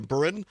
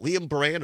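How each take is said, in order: First: Buran with an unstressed "-un" ending; first name pronunciation. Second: Buran with a full "-ann" ending; alternative name pronunciation. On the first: Host giving the other guess, Buran as "BURR-un". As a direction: say Buran like "burr-un", weak second vowel. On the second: Host repeating the uncertain name, Buran as "bur-ANN". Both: Real, not acted. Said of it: "not sure how you pronounce it".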